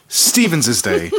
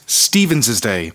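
First: "Stevens's" said slowly again, STEE-venz-iz; Stevens's Day. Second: "Stevens's" said slowly with an extra syllable, STEE-venz-iz; Stevens's Day. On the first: Insisting on the right name, slow and deliberate "Stevens's Day". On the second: Correcting listeners on the name, slow and deliberate "Stevens's Day". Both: Shown as a demonstration. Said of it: "Say it right".

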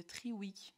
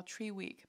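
First: Said in the usual way. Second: Tree Wick in an English accent; little English accent. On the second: Shown as a demonstration. Vlogger showing off a candle's brand name, little English accent. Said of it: "je fais mon petit accent".

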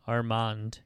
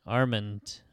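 First: Armand with an open "ah" in the second syllable; French-style Armand. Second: Said in the usual way. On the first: Shown as a demonstration. Storyteller trying out the name, Armand pronounced ar-MAHND.

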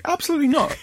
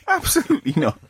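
First: High, insistent no way; absolutely not, said high and firm; emphatic refusal. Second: High, giggling no way; laughing refusal. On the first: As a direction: refuse it flat out, pitched way up. Refusing a snake near him. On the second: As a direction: repeat it through a laugh. Repeats refusal while laughing. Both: Real, not acted.

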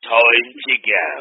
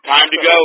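First: Playful slow-motion sign-off; slow drawn-out repeat. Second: Said in the usual way. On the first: Pretend. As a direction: stretch each word of "Time to go". Slow put-on repeat before signal.

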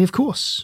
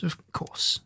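First: Said in the usual way. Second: Breathy whispered repeat. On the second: Acted. Doctor reassuring the Push-Me-Pull-You, whispering. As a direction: whisper it to yourself. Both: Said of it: "said the doctor".

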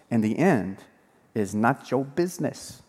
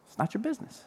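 First: Said in the usual way. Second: It's not your business, much softer, rising on business; soft repeated aside. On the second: Shown as a demonstration. Pastor softly repeating the point to the congregation, rising at the end. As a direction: murmur the repeat with a lift on business.

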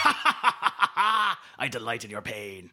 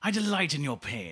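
First: Loud evil laugh into a slow gloat; cackle, then savour the words slowly; cackling villain gloat. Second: Villain gloat in a James Mason accent. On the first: Acted. Villain enjoys contestant's failure, cackling gloat. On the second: Shown as a demonstration. Host repeats gloat on request, James Mason accent. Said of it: "can you say that in that accent?".

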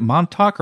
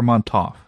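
First: "Montauk" ending in a hard K sound. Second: "Montauk" ending in F, like MON-toff. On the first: Co-host asking which pronunciation is right, "Montauk" with final K. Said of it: "I always thought it was a K". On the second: Co-host asking which pronunciation is right, "Montauk" ending in F. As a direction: swap the final K of "Montauk" for an F. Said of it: "where you got the F". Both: Shown as a demonstration.

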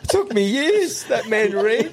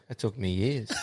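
First: High, laughing retelling; laughing repeat. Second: Soft, crushed mock lament; mock shattered dad. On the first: Retold or imitated. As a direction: repeat it cracking up, pitch way up. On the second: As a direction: play the heartbroken gardener, quietly. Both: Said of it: "the old boy was shattered".

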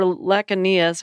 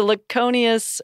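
First: "Laconius" as lack-uh-NEE-us; short first "a" in "Laconius", weak middle vowel; alternative pronunciation. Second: "Laconius" as luh-KO-nee-us; standard-sounding variant. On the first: Host offering a second option, "Laconius" as lack-uh-NEE-us. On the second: Host offering a first option, "Laconius" as luh-KO-nee-us. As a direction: stress the long "o" in "Laconius". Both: Shown as a demonstration. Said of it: "however you say it".

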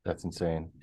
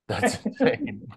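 First: Low, soft disbelief; quiet. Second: High-pitched amazed exclamation; surprised. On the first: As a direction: mutter it in disbelief. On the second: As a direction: squeal it in amazement. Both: Real, not acted. Repeats the phrase twice.

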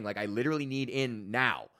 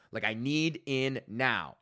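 First: Said in the usual way. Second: "need in now" spaced out slowly, word by word; slow, separate weight on "need", "in" and "now"; emphatic. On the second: Retold or imitated. Customer insisting on course access, "need in now" slow and emphatic.

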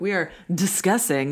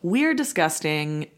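First: "discussing" with a clear k sound and no t; corrected word. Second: "disgusting" with a hard g sound and a t; slip of the tongue. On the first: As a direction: articulate "discussing" carefully as the fix. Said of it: "We are having a discussion". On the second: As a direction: say "disgusting" where discussing is meant, drawn out. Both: Real, not acted.

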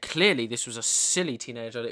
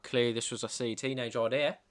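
First: Said in the usual way. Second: Posh Australian dad, lightly put on; posh Australian accent. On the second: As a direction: read it like a posh Sydney father. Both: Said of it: "That's would have been what he sounded like".

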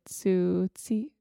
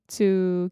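First: Tsutsi- with a second ts, the wrong way; wrong pronunciation. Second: Tsukiko with a clear k in the middle; corrected pronunciation. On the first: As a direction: say Tsutsi- with ts instead of k. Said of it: "you wanna say Tsutsiko". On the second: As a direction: say Tsukiko, tsu then ki then ko. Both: Shown as a demonstration.

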